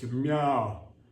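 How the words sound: A heavy, deep grown-cat voice says it.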